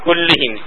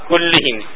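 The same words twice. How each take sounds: First: The vowel after kull is i. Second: The same.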